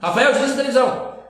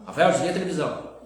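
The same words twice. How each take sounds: First: It is said with a raised, loud voice. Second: It is said in a calm, normal voice.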